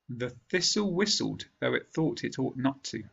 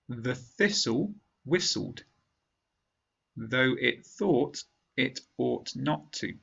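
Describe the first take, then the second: First: The sentence is spoken at normal speed. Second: The sentence is spoken slowly. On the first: "a second time at normal speed" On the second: "once slowly"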